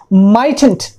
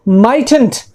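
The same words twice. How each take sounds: The two takes are said the same way.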